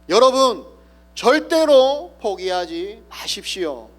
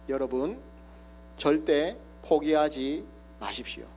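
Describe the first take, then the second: First: It is shouted with full force. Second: It is said quietly and deliberately.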